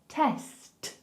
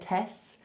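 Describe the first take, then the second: First: It ends with a clear t after the s. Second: It ends on the s, with no t. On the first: The speaker calls it right. "I want to hear the S and the T" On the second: The speaker calls it wrong. "Don't just give me the S. I don't want to hear test"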